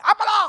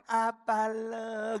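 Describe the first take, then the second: First: Loud, high, abrupt Sumatran retort; high-toned Sumatran. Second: Very slow, drawn-out Javanese delivery; Javanese accent. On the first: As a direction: fire it back loudly in a high Sumatran tone. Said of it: "nadanya tinggi". (nada tinggi khas orang Sumatera) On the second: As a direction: stretch each syllable softly, Javanese style. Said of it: "Kalau orang Jawa kan". (logat Jawa lambat mendayu) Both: Acted.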